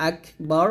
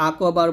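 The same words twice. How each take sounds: First: আকবার as "ak-bar", k closed with a puff; correct breathed k. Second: আকবার as "ako-bar", k bounced with a vowel; wrong echoed k. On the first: Shown as a demonstration. Teacher modelling the word, airy unbounced k in আকবার. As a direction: release air, not a vowel, after k in আকবার. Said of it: "হামস হবে, মানে বাতাস বের করবেন". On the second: Retold or imitated. Teacher imitating a common mistake, bouncing k in আকবার. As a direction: add a short o after k in আকবার. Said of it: "কাফটা কলকলা করে ফেলি".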